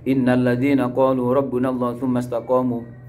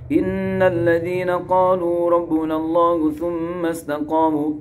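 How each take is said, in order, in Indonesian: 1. Huruf n dan m yang ganda tidak memiliki dengung sengau yang ditahan. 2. Huruf n dan m yang ganda membawa dengung sengau yang ditahan. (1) "Enggak boleh ... gunanya hilang" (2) "tetap harus dibaca guna"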